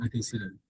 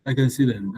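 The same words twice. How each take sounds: First: Much softer and lower, under the breath; quiet mutter. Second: Said in the usual way. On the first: Real, not acted. Teacher finding the answers, muttering quietly to herself. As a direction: mumble it to yourself as an afterthought.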